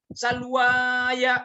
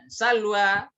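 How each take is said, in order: First: The word ends with an extra 'ya' syllable. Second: The word ends cleanly on 'wa'. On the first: The speaker calls it wrong. "makin salah lagi ya" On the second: The speaker calls it right. "alif sebagai hiasan saja"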